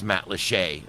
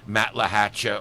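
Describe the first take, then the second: First: The name is said in the local pronunciation. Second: The name is said in an outsider's pronunciation. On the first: This is how the locals say it. The speaker calls it right. "It's Matlacha" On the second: This is how visitors from the north say it. The speaker calls it wrong. "everybody comes down from up north and calls it"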